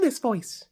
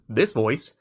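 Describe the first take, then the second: First: It is said in a high, soft baby voice. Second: It is said in a normal, lower voice. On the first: It calms animals and shows no threat. The speaker calls it right. "as to this voice" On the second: Animals react less well to it. The speaker calls it wrong. "they're gonna react not as good to this voice"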